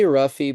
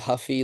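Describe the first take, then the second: First: The name begins with an R sound, like roofie. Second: The name begins with an H sound, like Huffy. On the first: "I usually say Ruffy" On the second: "it's probably Huffy like a bike"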